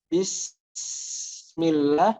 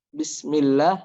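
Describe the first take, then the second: First: The s sound is held for too long. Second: The s sound is cut short quickly. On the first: "jangan terlalu lama juga. Bismillah, nah itu salah" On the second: "jangan terlalu cepat. Bismillah, nah itu belum sempurna"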